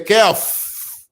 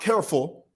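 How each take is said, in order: First: The word ends with an F sound, no L. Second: The word ends with a clear L sound. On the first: "There's no L at the end of careful in our Zambian lingo" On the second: "Not careful"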